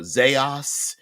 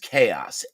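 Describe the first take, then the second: First: The word begins with a z sound. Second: The word begins with a k sound. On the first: "sometimes it's known as uh, Zaos" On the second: "what I pronounce as chaos"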